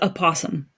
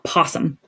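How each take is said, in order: First: The word starts with an extra vowel sound. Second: The word starts directly with the p sound. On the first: This is the technically correct name. The speaker calls it right. "Technically, it's a possum. That's the name of it" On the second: This is the common short name. The speaker calls it wrong. "It's not possum"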